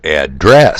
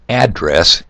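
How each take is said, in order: First: The stress is on the second syllable. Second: The stress is on the first syllable. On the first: It means to talk to someone. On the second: It is a place where someone lives.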